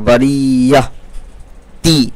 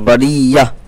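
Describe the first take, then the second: First: The word ends with a full 'ti' syllable. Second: The word stops on a soft 'h' ending. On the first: The speaker calls it wrong. "बरिया ती नहीं होगा" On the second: The speaker calls it right. "ता जो है वो हा बन जाता है"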